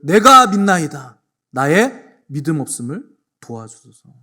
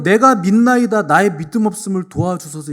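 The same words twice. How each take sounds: First: Slow, much louder pleading outcry; desperate cry. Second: Higher, much louder anguished cry; desperate cry. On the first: Father crying out to Jesus, desperate loud plea. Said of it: "소리를 지르기를". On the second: Preacher voicing the father's cry, anguished and loud. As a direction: wail it out to the congregation. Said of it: "그 절규하도 외쳤어요". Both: Retold or imitated.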